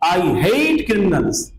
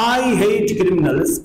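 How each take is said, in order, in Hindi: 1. जोर शब्द hate पर है। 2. जोर शब्द I पर है। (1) "ये जोर किस पर है? हेट पर है।" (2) "आई पर जोर है, इंटोनेशन आई पर है।"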